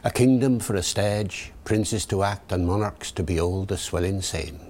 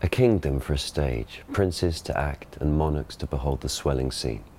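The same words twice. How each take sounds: First: Original pronunciation, rhotic Elizabethan accent; Early Modern English verse accent; Shakespearean original pronunciation. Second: Received pronunciation stage reading; modern RP Shakespeare. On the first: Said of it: "David the O P". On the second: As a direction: classic RP verse delivery. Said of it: "Ben gives the modern pronunciation". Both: Shown as a demonstration.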